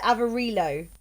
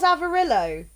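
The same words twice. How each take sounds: First: Avarillo with a long ee, av-a-REE-lo; "Avarillo" with ee in place of short i; pronounced with "ree". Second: Avarillo rhyming with Amarillo, short i in "rill"; "Avarillo" with a short i before the l; pronounced like Amarillo. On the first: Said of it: "Like, not re". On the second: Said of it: "like, Amarillo type thing?". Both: Shown as a demonstration.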